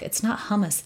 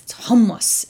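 First: "hummus" said lightly, without gusto; wimpy hummus. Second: "hummus" punched louder and higher; hummus with gusto. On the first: Guest showing how not to say it, limp "hummus". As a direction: toss off "hummus" the weak English way. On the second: Guest correcting the pronunciation, forceful "hummus". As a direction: give "hummus" strength, like a strong bean. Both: Shown as a demonstration. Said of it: "it needs gusto".

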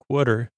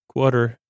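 The two takes are said the same way.

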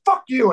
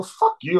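First: Higher-pitched mock-angry retort; heated comeback. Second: Measured retelling of a curse; mild retort. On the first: Singer cursing back at the drummer, heated imitation. Singer's reply in retold exchange. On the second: Retold or imitated. Drummer cursing the singer before a fight, mildly defiant. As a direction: throw the curse out without shouting.

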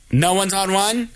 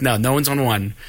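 First: "No one's on one?" rising steadily to a questioning end; questioning customer. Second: "No, no one's on one" as a lower statement, falling at the end; answering cashier. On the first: Customer asking about line one, puzzled imitation. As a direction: ask "No one's on one?" with ONE lifted. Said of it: "And she goes". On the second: Cashier answering the waiting customer, matter-of-fact imitation. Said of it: "The lady's like". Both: Retold or imitated.

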